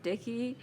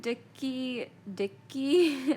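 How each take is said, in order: First: "dicky" the contrasted way, with a short single k; rejected pronunciation. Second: "dicky" said higher, with a held k; shown pronunciation. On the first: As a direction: say "dicky" lightly as DIH-kee, less forceful. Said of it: "not dicky". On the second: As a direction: demonstrate "dicky" as DIK-kee, second one louder. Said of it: "I think dicky, dicky, not dicky". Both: Shown as a demonstration.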